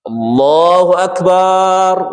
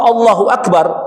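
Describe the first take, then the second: First: The vowel of the last syllable is long. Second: The vowel of the last syllable is short. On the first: It means God is a drum. The speaker calls it wrong. "Barnya panjang" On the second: God is the greatest. The speaker calls it right.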